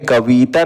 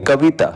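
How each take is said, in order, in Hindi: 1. बीच का स्वर लंबा खींचकर बोला जाता है। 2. बीच का स्वर छोटा और जल्दी बोला जाता है। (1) "कविता नहीं पढ़ेंगे" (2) "इसको हम लोग जल्दी पढ़ेंगे"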